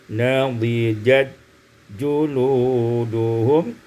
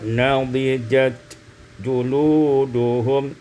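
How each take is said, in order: First: The 't' merges into the following 'j'. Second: The 't' is pronounced before the 'j'.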